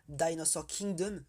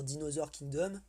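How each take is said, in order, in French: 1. Il est prononcé avec un accent anglais. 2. Il est prononcé avec un accent français. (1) "là ce serait un peu mieux comme prononciation" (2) "Excusez-moi, je le dis en français"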